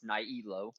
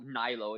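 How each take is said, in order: First: The name is said with three syllables. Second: The name is said with two syllables. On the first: The speaker calls it right. "it's Nihilo" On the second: The speaker calls it wrong. "you still call it Nilo"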